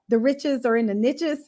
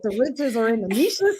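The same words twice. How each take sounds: First: Niches is said so it rhymes with riches. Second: Niches is said so it does not rhyme. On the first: The saying works as a rhyme. "there's a saying" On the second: The saying no longer works as a rhyme. "I don't think that works with"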